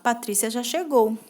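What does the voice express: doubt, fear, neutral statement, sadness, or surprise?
neutral statement. It is said as a plain, neutral statement. It simply states a fact. "simples afirmação"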